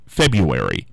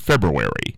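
First: The first r sound is left out. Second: The first r sound is clearly pronounced. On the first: "does have an R in it. But for some reason, it still comes out February" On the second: "the correct pronunciation would be February"

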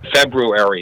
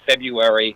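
First: The first R sound is clearly pronounced. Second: The first R sound is dropped. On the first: The speaker calls it right. "February is the way it should be said" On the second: The speaker calls it wrong. "it's not February"

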